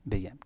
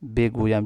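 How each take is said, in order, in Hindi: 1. यह शब्द छोटा करके बोला गया है, बीच की ध्वनियाँ छोड़ दी गई हैं। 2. यह शब्द पूरा बोला गया है, हर अक्षर के साथ। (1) "बेगुयाम का स्पोकन अंदाज" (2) "हाँ बिल्कुल सही है"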